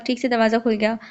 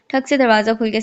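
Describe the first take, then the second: First: ठीक read with a long "ee", as in theek; reading ठीक as theek instead of thak; misread word. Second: ठक read short, as thak; corrected word. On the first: Narrator misreads the door sound as ठीक, theek. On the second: Narrator corrects herself to ठक, thak, the door's knock. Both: Shown as a demonstration.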